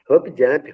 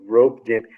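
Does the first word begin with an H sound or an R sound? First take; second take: H; R. First: The first word begins with an H sound. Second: The first word begins with an R sound. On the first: "toda hora, é, hop, hop jump" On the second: "por que que eles não pronunciam rope jump?"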